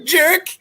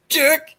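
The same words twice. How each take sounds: First: Very high, rising whiny jab; Bobcat character voice. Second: Very high jab; Bobcat character voice. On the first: Retelling Bobcat insulting Harris, very high whiny jab. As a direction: squeak out the insult. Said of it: "Bobcat saying to Harris". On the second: Bobcat repeating the insult to the girl, very high. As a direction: squeak it out again. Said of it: "Bobcat has to explain it". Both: Retold or imitated.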